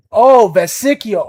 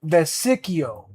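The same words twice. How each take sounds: First: Vesicchio repeated back slowly and loudly, trying the stress on the middle syllable; a learner's eager repeat of Vesicchio; repeating the name. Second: Vesicchio said slowly with the stress on the middle syllable; careful teacher's pronunciation of Vesicchio; correct Italian. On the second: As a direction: model the name Vesicchio for him. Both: Shown as a demonstration. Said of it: "You can try with".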